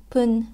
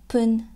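First: The word begins with a p sound. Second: The word begins with a p sound.

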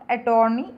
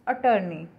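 First: The middle vowel sounds like 'torn'. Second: The middle vowel sounds like 'turn'. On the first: The speaker calls it wrong. "Not अटॉर्नी" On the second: The speaker calls it right. "It's अटर्नी"

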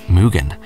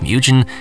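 First: It is said with a Japanese-style pronunciation. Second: It is said with an English-style pronunciation. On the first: The speaker calls it right. "it's actually a Japanese word meaning infinite and is correctly pronounced Mugen" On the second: The speaker calls it wrong. "many tend to pronounce it Mugen, and I did too in the past"

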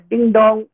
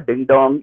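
First: It is said in a high pitch register. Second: It is said in a low pitch register.

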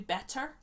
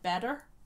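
First: The t in the middle is crisp and clear. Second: The t in the middle is soft or dropped. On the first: "So it'd be better" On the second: "But for us, it comes out like better"

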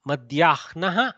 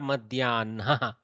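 First: The h sound comes before the n sound. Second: The n sound comes before the h sound. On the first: "Some people pronounce the Hakara first and then the Nakara" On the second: "Some people attack the Nakara first and then pronounce the Hakara"

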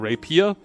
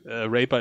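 First: It is said with an 'ee' sound after 'p'. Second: It is said without an 'ee' sound after 'p'. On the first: The speaker calls it right. "deswegen Rapier. Ist ja auch ein I drin" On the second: The speaker calls it wrong. "Raper ist nicht schön"

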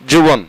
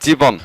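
First: The first vowel is a 'u' sound. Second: The first vowel is an 'i' sound. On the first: The speaker calls it right. "সঠিক উচ্চারণ হচ্ছে যুবন" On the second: The speaker calls it wrong. "আবার অনেকে বলে থাকে জীবন"

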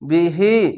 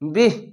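First: The word ends with a short vowel. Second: The word ends on a consonant, vowel dropped.

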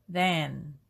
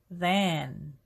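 Both takes have the same delivery.

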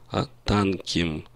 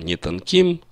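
First: The stress is on the first syllable. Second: The stress is on the last syllable. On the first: The speaker calls it right. "ударение не падает на окончание «им»" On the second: The speaker calls it wrong. "Ударение обычно не падает на окончание «им»"

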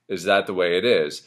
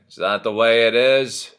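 First: It is said in a plain, neutral voice. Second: It is said in a drowsy, slow drawl. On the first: "So if the lyrics are" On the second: "There's this more sort of like"

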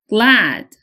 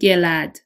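First: No sound is heard between g and l. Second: A vowel sound is inserted between g and l. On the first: The speaker calls it right. "هیچ صدایی بین گ و ل تلفظ نمیشه" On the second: The speaker calls it wrong. "نمیگیم glad"

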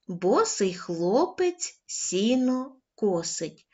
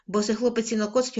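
First: It is read at a slow pace. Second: It is read at the quickest pace. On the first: "Спочатку повільно" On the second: "кожного разу будемо пришвидшувати темп"

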